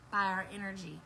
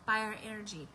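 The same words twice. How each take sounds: The two takes are said the same way.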